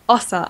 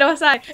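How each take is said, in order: First: The name ends with an 'ah' sound. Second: The name ends with an 'eye' sound. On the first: The speaker calls it right. "You're right, it's Ossa" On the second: The speaker calls it wrong. "And I said Osai"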